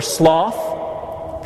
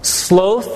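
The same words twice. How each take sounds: First: "sloth" with an open aw vowel; short-vowel pronunciation. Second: "Sloth" with a long o, as in "both"; long-o pronunciation. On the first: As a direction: say "sloth" to rhyme with cloth. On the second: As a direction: say "Sloth" to rhyme with growth. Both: Shown as a demonstration. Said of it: "pronounced both ways".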